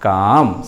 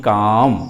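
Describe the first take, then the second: The two takes are said the same way.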